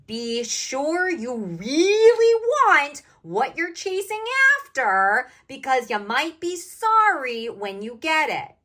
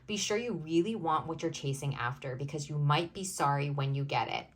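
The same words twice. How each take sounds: First: It is said at a louder volume. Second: It is said at normal volume.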